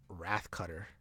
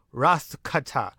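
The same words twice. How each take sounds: First: Said in the usual way. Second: Slow, drawn-out "Wrath cutter" with altered vowels; silly put-on voice. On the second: Recapper savouring the renamed finishing move, silly and drawn out. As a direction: ham up WRATH CUTTER, ending on "cuttah".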